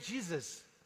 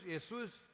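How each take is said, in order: First: The name is pronounced the American English way. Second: The name is pronounced the Spanish way. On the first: "Se eu fosse americano, seria" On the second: "Se eu fosse espanhol, eu falaria"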